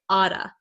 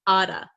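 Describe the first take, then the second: First: The T is a quick flap like D. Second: The T is a quick flap like D.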